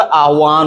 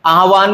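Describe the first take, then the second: First: आह्वान with half h joined to w, aah-waan; correct pronunciation. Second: आह्वान with a full ha, aa-ha-vaan; wrong pronunciation. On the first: Teacher explaining the half letter, आह्वान said as aah-waan. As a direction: join h and w in आह्वान. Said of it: "आधा होता है". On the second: Teacher showing the mistake, आह्वान said as aa-ha-vaan. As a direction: put a vowel after h in आह्वान. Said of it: "नहीं होता". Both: Shown as a demonstration.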